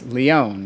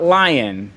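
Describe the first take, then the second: First: The name is said with a French pronunciation. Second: The name sounds like the English word lion. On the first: The speaker calls it right. "The French pronunciation" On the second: The speaker calls it wrong. "It's not Lion"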